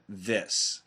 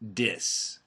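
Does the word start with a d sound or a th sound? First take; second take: th sound; d sound. First: The word begins with a soft th sound. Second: The word begins with a hard d sound. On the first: The speaker calls it right. "I highly recommend that you keep the T H sound" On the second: The speaker calls it wrong. "Some Americans do say dis instead of this"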